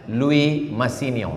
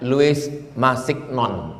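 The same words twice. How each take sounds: First: It is said with French sounds and silent letters. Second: Every letter is sounded as it is written. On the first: "Cara membacanya"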